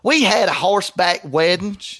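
It is read in a put-on, different accent.

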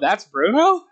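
The voice rises at the end, a question.

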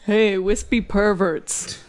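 It is said in a put-on bear voice.

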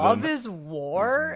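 The voice rises at the end. The speaker calls it right. "There's a question mark"

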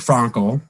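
The name is said with a German-like pronunciation.

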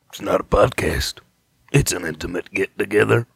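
It is said in a put-on character voice.

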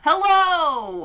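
The greeting sounds bright, loud and exaggerated. "because I usually say hello. Really annoyingly"

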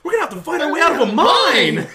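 It sounds thrilled and enthusiastic.

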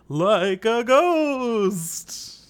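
It is said in a spooky, Dracula-like voice.

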